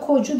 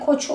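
First: The middle consonant is softened to a j sound. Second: The middle consonant stays a ch sound. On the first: The speaker calls it wrong. "Kocu demiyoruz" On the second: The speaker calls it right. "yine koçu olarak kalıyor"

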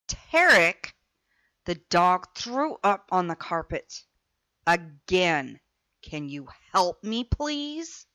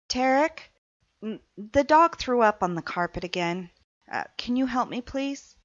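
First: It sounds accusing and irritated. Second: It sounds gentle and non-judging.

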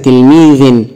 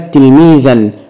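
First: The word ends in the sound 'in'. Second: The word ends in the sound 'an'. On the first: "بالكسر" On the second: "بالفتح"

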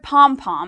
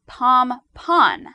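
First: The word ends with an M sound. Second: The word ends with an N sound. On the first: This is the everyday form used in the media. The speaker calls it wrong. "it's the word people use in general" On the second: This is the form used by professionals. The speaker calls it right. "is actually pom-pon with an N"

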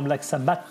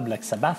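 First: The name is said with French-style pronunciation. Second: The name is said with English-style pronunciation. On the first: The speaker calls it wrong. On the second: The speaker calls it right.

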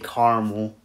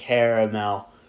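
First: It is said the Western New York way. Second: It is said the Eastern New York way.

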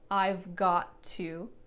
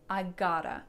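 First: Each word is said fully and separately. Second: The words are blended into one reduced form. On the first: "Not I've got to" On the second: "All of my words got smushed together"

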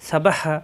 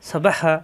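Both takes have the same delivery.

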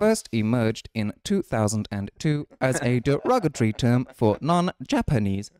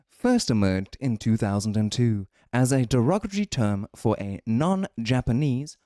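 First: It is read in an imitated Pokedex voice. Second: It is read in his normal voice.

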